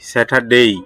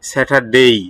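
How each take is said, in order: First: The last syllable ends in an 'ei' glide. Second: The same.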